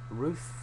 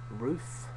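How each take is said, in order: The two takes are said the same way.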